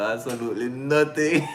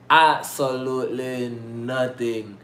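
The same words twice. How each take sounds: First: Giggling, ending on a rise; laughing. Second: Drawn out, slow sing-song. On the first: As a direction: say it while cracking up. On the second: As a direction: stretch it out like a little tune. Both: Real, not acted.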